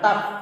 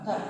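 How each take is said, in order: First: The t is released plainly without a hiss. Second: The t is released with an audible hiss. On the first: The speaker calls it wrong. "bukan tab" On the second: The speaker calls it right. "tab tab tab tab ada desisnya"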